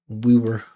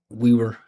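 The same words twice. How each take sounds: The two takes are said the same way.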